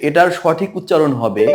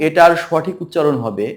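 No difference in how they are said.

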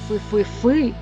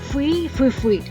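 First: The stress is on the last syllable. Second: The stress is on the first syllable. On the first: "Роблячи наголос на останньому складі" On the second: "Роблячи наголос на першому складі"

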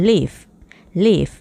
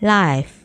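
First: The vowel is short, like 'ih' in 'give'. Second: The vowel is long, like 'eye' in 'five'. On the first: It is a verb meaning to live or reside. "ถ้าเป็นคำกริยาจะอ่านออกเสียงว่า" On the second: It is an adjective meaning broadcast live. "ถ้าเป็น adjective จะอ่านออกเสียงว่า"

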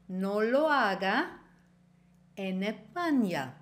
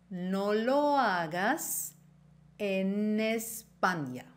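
First: The s at the end of hagas is dropped. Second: The s at the end of hagas is pronounced.

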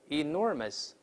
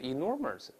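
First: The last syllable has no curled-tongue r sound. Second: The last syllable has a curled-tongue r sound. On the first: The speaker calls it right. "后面ous 没有字母r，不能勾舌头" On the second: The speaker calls it wrong. "而不是enormous"

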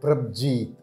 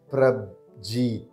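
First: It is said at normal speed. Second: It is said slowly.

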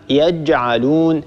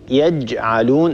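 No difference in how they are said.

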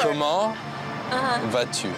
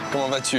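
First: The phrase is spoken at a slower pace. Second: The phrase is spoken at a fast pace. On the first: The speaker calls it right. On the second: The speaker calls it wrong.

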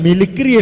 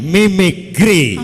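First: The second syllable begins with an l sound. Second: The second syllable begins with an m sound. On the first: The speaker calls it wrong. "മിലിക്രി അല്ല" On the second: The speaker calls it right. "വ്യക്തമായിട്ട് പറയണം"

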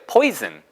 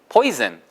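The two takes are said the same way.

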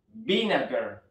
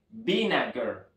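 The two takes are said the same way.

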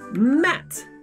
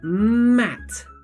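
First: The word is said quickly and cut short. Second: The word is said at a moderate speed. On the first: "very fast" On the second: "but a little bit faster"

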